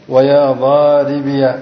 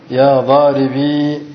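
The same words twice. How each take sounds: First: Slow, "ضاربي" ending in -iya; voweled final ya. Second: Slow, "ضاربي" ending in a long ee; silent final ya. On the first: Teacher showing students the second form, "ضاربي" said daaribiya. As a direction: open the last ya of "ضاربي" into a short a. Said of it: "مفتوحة،". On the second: Teacher showing students the first form, "ضاربي" with long final ee. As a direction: hold "ضاربي" on a still ee, no vowel after it. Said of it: "إثبات الياء ساكنة". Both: Shown as a demonstration.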